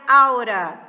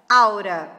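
First: The words merge, ending in a weak schwa. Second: The words merge, ending in a weak schwa.

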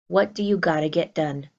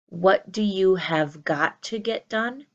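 First: The words are reduced to 'gotta'. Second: The words are stretched out in full. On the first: The speaker calls it right. "I can put in this informal piece of gotta" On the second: The speaker calls it wrong. "I would not stretch them out and say"

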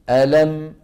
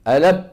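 First: The final m is held for a moment. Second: The final m is cut off abruptly. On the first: The speaker calls it right. "مثل الميم ألم ألم م" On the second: The speaker calls it wrong. "وليس ألم ألم يعني إيش؟ مبتورة"

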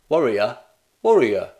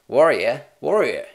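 First: It is spoken in an English accent. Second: It is spoken in an Australian accent.

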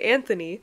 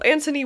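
First: The name is said with a 'th' sound. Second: The name starts with 'ant' and a hard t. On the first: The name is said the usual way. "we're gonna say Anthony" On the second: The name puns on the word ant. "would be the play on words because it's gonna be an ant"

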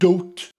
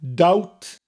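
First: The vowel sounds like oh. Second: The vowel sounds like ow.

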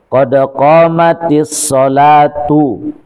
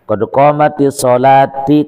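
First: The last word ends with a 'u' vowel. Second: The last word ends with an 'i' vowel. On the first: The speaker calls it right. "Yang benar itu qad qamatis shalatu" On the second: The speaker calls it wrong. "Dendek dibaca kena qad qamatis shalati, qad qamatis shalah. Salah"

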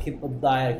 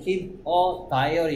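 First: The words keep and a run together smoothly. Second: The words keep and a are said separately. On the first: The speaker calls it right. "그냥 퍽 붙여버려" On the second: The speaker calls it wrong. "이걸 keep a diary 이렇게 얘기하는 사람 아무도 없어"

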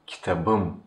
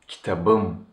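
First: The consonant before the ending is a voiced b. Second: The same.

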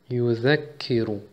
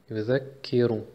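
The two takes are said the same way.

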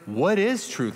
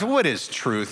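First: It sounds like a sincere, curious question. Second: It sounds like a dismissive, cutting jab. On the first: The asker genuinely wants to understand. The speaker calls it wrong. "Like, help me understand" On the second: The asker is brushing off the comment. The speaker calls it right. "No, this is a shot"

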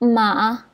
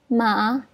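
Both takes have the same delivery.

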